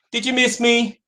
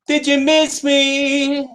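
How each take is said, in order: First: Said in the usual way. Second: High, stretched-out tease; playful drawn-out greeting. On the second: Pretend. Host back on camera teasing viewers, playful drawn-out call. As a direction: draw out "miss me" high and long.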